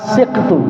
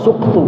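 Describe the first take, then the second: First: The first vowel is i. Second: The first vowel is u.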